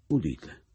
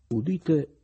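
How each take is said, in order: First: Said in the usual way. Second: Loud, high proclaiming call; town crier. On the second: Acted. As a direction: announce it like a crier. (banditore che proclama a gran voce) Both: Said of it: "nell'atto di recitare".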